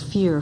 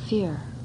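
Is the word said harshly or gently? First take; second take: harshly; gently. First: The word is said harshly and forcefully. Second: The word is said softly and gently. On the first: The feeling is being pushed away. The speaker calls it wrong. "not to use it as a club" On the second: The feeling is being met and acknowledged. The speaker calls it right. "Using the very tone of voice in the noting as a way of connecting"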